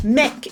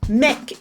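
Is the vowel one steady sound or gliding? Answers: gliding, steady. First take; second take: steady; steady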